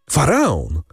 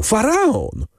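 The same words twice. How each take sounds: First: First cry of "Faraon!", called out with a lift; "Faraon!" cried eagerly, still held back a little; excited call. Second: Second "faraon!" flung out much higher; "faraon!" shrieked up high, overflowing with joy; ecstatic cry. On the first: Emanuel bursting in to tell Morel, first eager "Faraon!". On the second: Emanuel repeating the news to Morel, much higher ecstatic "faraon!". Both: A narrator's reading. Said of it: "wołał".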